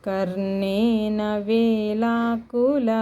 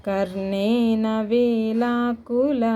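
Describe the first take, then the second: The two takes are said the same way.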